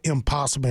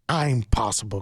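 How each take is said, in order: First: It begins with a short unstressed 'im' sound. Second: It begins with a clear, separate word 'I'm'. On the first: Something cannot be done. The speaker calls it wrong. "spell right is pronounced wrong" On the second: I am capable of doing it. The speaker calls it right. "It's actually I'm possible"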